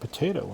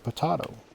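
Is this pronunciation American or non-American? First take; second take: American; non-American. First: It is said the American way. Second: It is said a non-American way. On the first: "us Americans say" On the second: "instead of"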